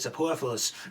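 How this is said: It is said in a New York accent.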